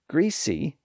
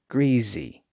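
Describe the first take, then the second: First: The middle consonant is a voiceless S sound. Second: The middle consonant is a voiced Z sound. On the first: "greasy has a voiceless S sound between the two voiced vowels" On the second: "thereby voicing the consonant in the middle"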